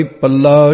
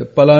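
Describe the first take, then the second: First: ਪੱਲਾ with a held, doubled L. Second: ਪਲਾ with a short, single L. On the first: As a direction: lengthen the L in ਪੱਲਾ. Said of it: "ਸ਼ਬਦ ਉਚਾਰਨ ਕਰਨਾ ਹੈ". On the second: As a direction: say ਪਲਾ as pa-laa, no doubling. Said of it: "ਨਹੀਂ ਕਹਿਣਾ ਇਹਨੂੰ". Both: Shown as a demonstration.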